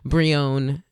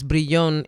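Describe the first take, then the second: First: The name is said with an American accent. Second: The name is said with a Spanish accent. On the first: "if you're saying it with more of an American accent" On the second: "if you're saying it with a Spanish accent"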